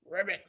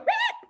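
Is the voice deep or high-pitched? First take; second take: deep; high-pitched. First: It is said in a deep voice. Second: It is said in a high voice.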